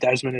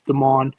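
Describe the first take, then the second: First: An s sound comes before the m. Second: No s sound comes before the m. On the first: The speaker calls it wrong. "I call him Desmond. It's not Desmond" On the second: The speaker calls it right. "There's no S"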